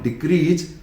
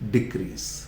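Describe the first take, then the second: First: The word ends with a z sound. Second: The word ends with an s sound. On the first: The speaker calls it wrong. "Not डिक्रीज" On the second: The speaker calls it right. "से होना चाहिए"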